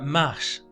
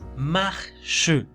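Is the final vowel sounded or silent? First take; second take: silent; sounded. First: The final e is silent. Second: The final e is sounded like Spanish e. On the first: The speaker calls it wrong. "como termina en la E no se la pronuncia ... pero es incorrecto" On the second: The speaker calls it right. "la pronunciación correcta ... suena como el español E"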